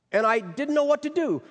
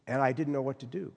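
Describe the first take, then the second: First: High, pleading, near tears; distressed. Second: Said in the usual way. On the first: Retold or imitated. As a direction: let her distress break through higher. [name]'s distress peaks, retold.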